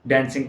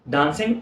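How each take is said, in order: First: It is said in an American accent. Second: It is said in a British accent. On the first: "American जो है इसको डांसिंग कहते हैं" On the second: "डांसिंग अगर कहेंगे तो ये ब्रिटिश एक्सेंट है"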